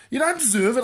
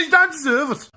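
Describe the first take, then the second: First: Said in the usual way. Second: Louder, faster repeat. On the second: Shown as a demonstration. Telling off a korma eater, louder and faster. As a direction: repeat it louder and quicker, pushing harder. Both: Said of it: "I said you don't deserve it".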